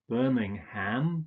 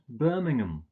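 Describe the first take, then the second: First: The last syllable is a full 'ham'. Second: The last syllable is a reduced 'um'. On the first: The speaker calls it wrong. "you don't, don't pronounce this ham" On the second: The speaker calls it right. "you usually just pronounce it um"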